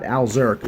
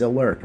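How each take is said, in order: First: "Alzurk" said al-ZURK, with the z sounded; wrong reading "Alzurk", z clearly pronounced; mispronunciation, Alzurk. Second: "Alurk" said uh-LURK, with no z sound; correct pronunciation of Alurk. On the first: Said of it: "not Alzurk". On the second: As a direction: say "Alurk" as uh-LURK, z left silent. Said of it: "It's pronounced as Alurk". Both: Shown as a demonstration.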